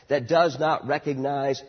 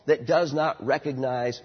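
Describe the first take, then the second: No difference in how they are said.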